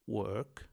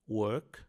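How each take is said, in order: No difference in how they are said.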